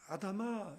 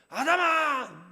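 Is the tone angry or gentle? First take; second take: gentle; angry. First: It is called in a gentle, sorrowful tone. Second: It is shouted in an angry tone.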